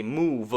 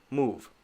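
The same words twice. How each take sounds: First: "move" wrongly said as move-vuh; two syllables. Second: "move" in a single short beat; one syllable. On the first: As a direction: add a second beat, vuh, to "move". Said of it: "that would be two syllables". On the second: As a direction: end "move" on the V with nothing after. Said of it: "it's a one-syllable word". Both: Shown as a demonstration.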